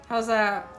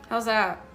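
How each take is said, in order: No difference in how they are said.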